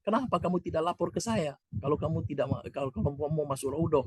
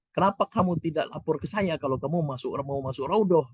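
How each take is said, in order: First: Higher, softer reproachful question; imitating the Arab man. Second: Higher, questioning Arab man voice; imitating the Arab man. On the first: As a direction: repeat his complaint, pitched up. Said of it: "Kata orang itu". (menirukan orang Arab menegur dengan suara lebih tinggi) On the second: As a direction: replay the stranger's demand. Arab man's question translated. (menirukan orang Arab bertanya dengan nada tinggi)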